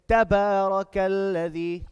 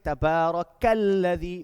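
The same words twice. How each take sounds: First: The opening syllable gets extra emphasis. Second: The opening syllable gets no extra emphasis. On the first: The speaker calls it right. "we apply emphasis on the first word" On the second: The speaker calls it wrong. "Instead of saying"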